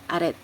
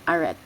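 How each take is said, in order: First: The word is said with an English pronunciation. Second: The word is said with an English pronunciation.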